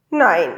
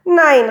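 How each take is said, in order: First: Short, restrained call of refusal. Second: Louder, higher cry of protest; called-out refusal. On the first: Papa objecting to the hat, restrained called refusal. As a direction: call out a firm no, without shouting. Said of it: "rief der Papa". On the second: Josef protesting the hat after Papa, high loud call. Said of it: "rief der Josef". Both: A narrator's reading.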